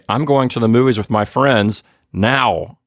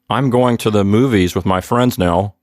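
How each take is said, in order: First: The word 'now' is said with strong stress. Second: The sentence is said evenly, without stressing 'now'. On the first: It is happening right now, not later. "like I'm trying to emphasize the fact that it's right now" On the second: It is simply a statement of plans. "That just sounds like a statement"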